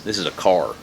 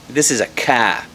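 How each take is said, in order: First: It is said in a Texas accent. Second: It is said in a Boston accent.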